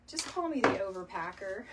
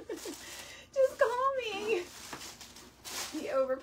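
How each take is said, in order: First: Said in the usual way. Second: Much higher, very slow, laughing through the words. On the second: Real, not acted. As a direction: stretch the joke out while cracking up. Jokes, then repeats it laughing.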